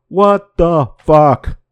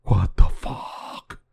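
First: Loud disbelief. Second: Slow, breathless whisper of shock; whispered disbelief. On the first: Reacting to the UFO headline. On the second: Vlogger rereading the UFO headline in a stunned, slow whisper. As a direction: let it fall to a stunned whisper. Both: Real, not acted.

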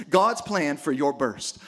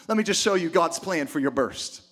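First: "God's plan for your burst" said slowly, each word leaned on; slow down and weigh "God's plan for your burst"; emphasized, slow. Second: Said in the usual way. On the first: Shown as a demonstration. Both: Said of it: "That's what I wanna emphasize".

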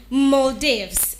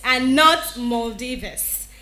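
First: Maldives said MOL-deevz; correct pronunciation. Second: Maldives said MOL-dee-vuhs; common mispronunciation. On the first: Diction host modelling MOL-deevz. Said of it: "You pronounce that as Maldives". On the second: Host warning listeners off MOL-dee-vuhs. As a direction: Maldives with an extra vuhs syllable. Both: Shown as a demonstration.

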